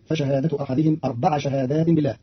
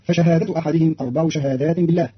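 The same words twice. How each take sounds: First: أربع said "arbaʕa" ending in a; أربع بنصب العين; ʕayn with fatha. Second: Said in the usual way. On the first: Shown as a demonstration. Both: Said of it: "بنصب العين".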